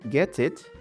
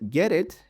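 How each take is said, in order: First: The T is a crisp, full T sound. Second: The T is a soft, D-like flap. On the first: "not get it" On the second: "She says get it"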